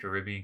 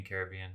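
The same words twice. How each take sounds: First: Caribbean stressed on RIB, "kuh-RIB-ee-un"; corrected pronunciation. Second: Caribbean with main stress on BE, "CARE-uh-BEE-un"; other pronunciation. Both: Shown as a demonstration. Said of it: "I don't know why I said it like that".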